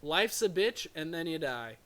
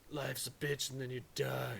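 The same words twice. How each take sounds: First: It is said in his normal voice. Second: It is said in a Duke Nukem voice.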